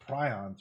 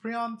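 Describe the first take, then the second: First: "prions" said as PRY-ons, lower; pronounced "pry-ons". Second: "prions" said as PREE-ons, higher and questioning; pronounced "pree-ons". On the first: Streamer recalling the pronunciation they thought right, "prions" as PRY-ons. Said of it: "I thought it was pronounced prions". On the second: Streamer asking chat how it is pronounced, "prions" as PREE-ons. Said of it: "is it pronounced prions?". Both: Shown as a demonstration.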